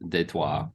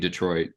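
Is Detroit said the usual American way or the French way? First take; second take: French; American. First: Detroit is said with a French pronunciation. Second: Detroit is said in an ordinary American way. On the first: "if you're from France, Detroit" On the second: "it's typically Detroit"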